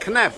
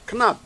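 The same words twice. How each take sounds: First: The vowel is a hard, flat a. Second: The vowel is a softened, Dutch-style a. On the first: The speaker calls it wrong. "not knap" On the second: The speaker calls it right. "you should soften the a, like in Dutch"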